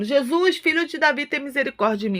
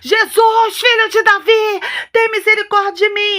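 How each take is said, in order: First: It is said in a calm, quiet voice. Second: It is shouted loudly and urgently.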